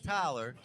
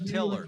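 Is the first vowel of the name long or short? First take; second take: long; short. First: The first vowel is a long i sound. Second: The first vowel is a short i sound. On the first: The speaker calls it wrong. "Not Tyler, because it's not a long I sound" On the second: The speaker calls it right. "it's Till"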